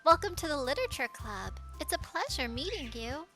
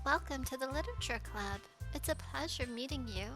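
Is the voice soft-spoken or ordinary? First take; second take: ordinary; soft-spoken. First: It is said in an ordinary voice. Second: It is said in a soft-spoken voice.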